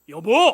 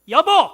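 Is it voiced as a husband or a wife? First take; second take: husband; wife. First: It is voiced as the husband calling. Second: It is voiced as the wife, loudly.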